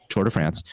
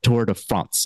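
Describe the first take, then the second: First: France is said with a plain American pronunciation. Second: France is said with a French-style pronunciation. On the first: This is the usual everyday pronunciation. The speaker calls it right. "we call it France all other times" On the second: This is the fancy pronunciation being refused. The speaker calls it wrong. "I will not call it Tour de France"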